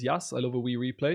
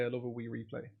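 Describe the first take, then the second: First: Said in the usual way. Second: Soft, low try at a Scottish accent; tentative mock Scottish, under the breath. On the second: Shown as a demonstration. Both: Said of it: "Do you want me to do my Scottish accent?".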